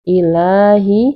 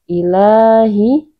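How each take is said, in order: No difference in how they are said.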